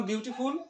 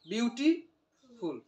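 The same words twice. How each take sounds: First: Said in the usual way. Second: beautiful broken slowly, with a clear pause before ফুল; split into syllables. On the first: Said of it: "যেমন আমি বললাম beautiful". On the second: Shown as a demonstration. Teacher showing students the two syllables, syllable by syllable. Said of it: "দুই syllable না?".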